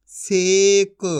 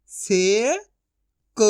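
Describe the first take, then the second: First: Said in the usual way. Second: से rising long, pause, क; syllable by syllable. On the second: Shown as a demonstration. Teacher sounding out for learners, syllable by syllable. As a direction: split सेक into two drawn-out sounds. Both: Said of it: "एक एक अक्षर का उच्चारण".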